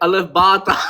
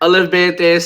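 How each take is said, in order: First: The letter names end in an 'a' vowel. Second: The letter names end in an 'e' vowel. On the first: The speaker calls it right. "गलत है अलिफ बा ता right?" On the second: The speaker calls it wrong. "Punjabi वाला"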